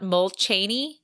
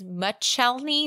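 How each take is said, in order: First: An extra L sound comes before the CH sound. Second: No L sound comes before the CH sound. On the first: The speaker calls it wrong. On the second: The speaker calls it right. "It is"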